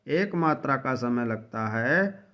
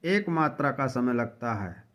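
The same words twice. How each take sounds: The two takes are said the same way.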